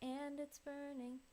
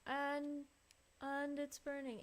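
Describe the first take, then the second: First: The word 'and' is pronounced in a normal way. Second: The word 'and' is pronounced in an odd way. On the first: The speaker calls it right. "I want it to be more like" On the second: The speaker calls it wrong. "the way she pronounces and is really weird"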